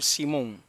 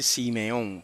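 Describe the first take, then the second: First: The middle vowel is dropped, giving two syllables. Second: A middle vowel is voiced, giving three syllables. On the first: The shewa is left silent, as the Hebrew is read. The speaker calls it right. "es más correcto decir Simón" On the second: The shewa is voiced, as in the Greek translation. The speaker calls it wrong. "que decir Simeón"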